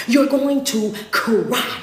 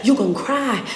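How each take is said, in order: First: Very slow, each word stretched; slow and drawn out. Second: Said in the usual way. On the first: Acted. Preacher stretching the warning to the crowd, slowly. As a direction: draw every word out for weight. Repeats line, then slows it.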